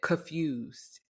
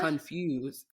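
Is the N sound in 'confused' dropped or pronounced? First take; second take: dropped; pronounced. First: The N sound in the word is left out. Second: The N sound in the word is clearly pronounced.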